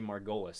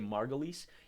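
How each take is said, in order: First: The name is said the American way. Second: The name is said the British way. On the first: "In the United States they say Margolis" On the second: "in Britain they usually say Margolis"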